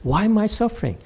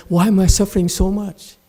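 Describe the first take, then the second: First: Lightly higher mock whine; a touch of self-pitying parody; mock whining. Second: Mildly high, louder mock whine; mock whining. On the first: Master mimics a student whining, mild mock whine. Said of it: "you keep on whining and say". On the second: Master imitates a student whining about suffering, mock whine. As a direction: parody a self-pitying complaint. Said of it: "you're also whining and say".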